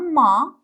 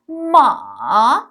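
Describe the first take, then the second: First: The pitch rises steadily, like surprise. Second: The pitch dips low, then rises. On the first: "بالا میره میگم ما، انگار تعجب کردم" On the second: "ببین صدا میاد پایین میره بالا"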